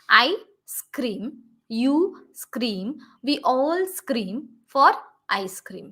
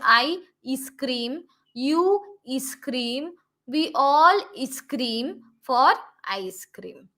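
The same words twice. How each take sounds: First: Each scream starts directly with the s sound. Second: An extra vowel sound comes before each s. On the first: The speaker calls it right. "We should start with uh, the sound s" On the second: The speaker calls it wrong. "many people would read it like this"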